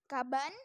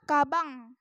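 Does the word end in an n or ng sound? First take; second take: n; ng. First: The word ends with a plain n sound. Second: The word ends with an ng sound.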